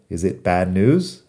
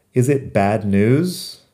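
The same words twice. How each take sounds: First: Said in the usual way. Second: "Is it bad news?" said slowly, word by word; slow model reading. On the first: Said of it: "¿Es una mala noticia?". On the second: Shown as a demonstration. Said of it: "otra pregunta".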